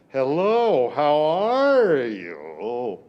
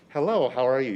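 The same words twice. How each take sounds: First: It is said in a big, exaggerated way. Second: It is said plainly, with ordinary energy. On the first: The speaker calls it right. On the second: The speaker calls it wrong.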